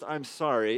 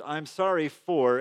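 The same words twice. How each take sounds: First: Said in the usual way. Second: Slow "I'm sorry for," with weight on "for"; stress on for. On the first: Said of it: "it's not just". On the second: Shown as a demonstration. Pastor showing kids how to name the wrong, stressing "for". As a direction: lean into "for" and slow down. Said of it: "actually naming the thing".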